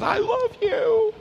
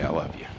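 First: Very high, slow, drawn-out mom voice; embarrassingly doting sing-out, hammed up; gushing mom. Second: Very low, hushed and sincere; soft, heartfelt low voice; tender longing. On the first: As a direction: imitate a mother gushing in public. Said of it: "My mom hugs me". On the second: Retold or imitated. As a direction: say it quietly, as a treasured memory. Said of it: "to hear my mom say".

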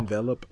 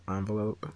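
First: "Envelope" with short e first; "Envelope" as EN-velope. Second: "Envelope" with broad ah first; "Envelope" as AHN-velope. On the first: Co-host tests both options, "Envelope" as EN-velope. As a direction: say "Envelope" starting like ten. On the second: Co-host tests both options, "Envelope" as AHN-velope. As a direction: say "Envelope" starting like on. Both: Shown as a demonstration. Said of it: "I'll say envelope".

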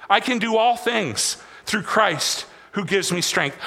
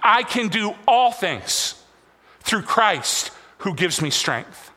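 First: Said in the usual way. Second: Slow, word by word, leading the room; slow, deliberate lead line for the congregation to repeat; slow call-and-response line. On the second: Shown as a demonstration. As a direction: spell it out slowly so the parents can follow. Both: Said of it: "Every parent on me".

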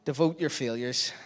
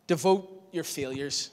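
First: "Devote your failures" at normal pace, weight on "your"; quick restatement. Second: "devote your failures" spaced out slowly, weight on "devote"; slow emphasis. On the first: Preacher repeating his point, stress on "your". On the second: Preacher landing his third point, slow stress on "devote". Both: Shown as a demonstration.

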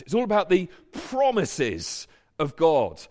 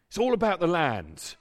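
First: "all" stressed, landing on "promises of God"; big-picture answer with "all" stressed. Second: "all" leaned on, falling to "land"; small-picture take with "all" stressed. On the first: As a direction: hit "all" and let "promises of God" carry the turn. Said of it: "put the emphasis on the promised". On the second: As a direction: push the word "all" to sum up the small picture. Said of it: "The small picture". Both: Shown as a demonstration.

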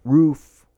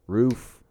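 First: Blurting the word out, louder and higher; Roof. shot out loud and high with relief; loud exclamation. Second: Said in the usual way. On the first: Real, not acted. Friend finally finds the word, loud exclamation.

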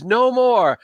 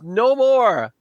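First: High desperate cry; a broken man yelling at his tormentor; screaming NPC. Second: High desperate cry again, falling; yelling at his tormentor; screaming NPC. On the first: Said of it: "he's screaming". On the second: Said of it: "He goes". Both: Acted.

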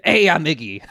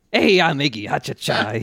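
First: Quick Brooklyn greeting; light New York street accent. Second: Imitating a Brooklyn tough-guy voice; cheeky New York street accent. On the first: Retold or imitated. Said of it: "the narrator just says". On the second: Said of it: "doing a Brooklyn accent".

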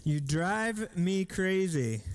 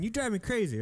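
First: Slow, drawn-out reading of the words. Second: Lightly voiced scolding mom, a bit higher; a hint of a mom. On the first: Shown as a demonstration. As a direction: let each word hang, slowly. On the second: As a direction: toss it off like a fed-up mom. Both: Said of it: "That could have been a mom saying".

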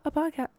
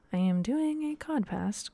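First: Said in the usual way. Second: Says "codpast" with the c and p swapped on purpose; joking slip codpast. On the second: Shown as a demonstration. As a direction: swap the sounds, "codpast" instead of podcast. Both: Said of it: "I almost said codpast".

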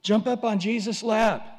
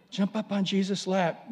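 First: Eager invitation. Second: Gentler repeat. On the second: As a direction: repeat it tenderly. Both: Shown as a demonstration. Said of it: "like a little toddler".

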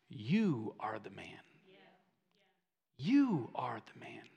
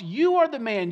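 First: Low, hushed, drawn-out verdict; quiet, weighty confrontation; grave quiet accusation. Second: "You are the man" said in full preaching voice; "You are the man" projected straight at the listeners; emphatic application. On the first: Acted. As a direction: let the punchline land softly, sinking towards a whisper. Nathan's punchline to David, acted gravely. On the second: Real, not acted. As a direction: drive "You are the man" home firmly, falling at the end. Preacher applies the punchline to congregation.

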